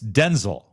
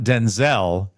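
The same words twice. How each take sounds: First: The stress is on the first syllable. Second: The stress is on the second syllable. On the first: The speaker calls it right. "It's Denzel. You emphasize the first" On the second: The speaker calls it wrong. "It's not Denzel"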